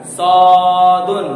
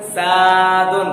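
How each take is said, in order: First: "सॉदुन" loud and drawn out with a rounded "aw"; rounded, Bengali-like vowel. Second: "सादुन" with an open, thin "aa"; wrong unrounded vowel. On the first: Teacher showing mouth rounded like Bengali, loud chanted "सॉदुन". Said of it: "Bengali की तरह करना". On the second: Teacher showing the mistaken reading, open "aa" in "सादुन". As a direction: chant "सादुन" without rounding the lips. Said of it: "गलत हो गया।". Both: Shown as a demonstration.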